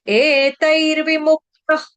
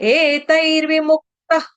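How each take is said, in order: No difference in how they are said.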